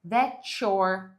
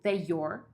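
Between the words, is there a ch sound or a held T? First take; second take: ch sound; held T. First: The T and Y merge into a ch sound. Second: The T is held before the Y sound. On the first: "o T e o Y interajam e vai virar um som de ch" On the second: "você pode simplesmente segurar o T, tipo the your"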